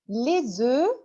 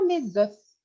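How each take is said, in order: First: The final F sound is silent. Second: The final F sound is pronounced. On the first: The speaker calls it right. "alors on ne prononce pas le F" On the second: The speaker calls it wrong. "ne dites pas les œufs. C'est faux"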